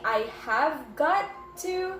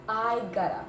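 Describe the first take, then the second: First: Each word is said fully and separately. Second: The words blend into one short form. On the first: "Instead of saying I have got to" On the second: "we just say gotta"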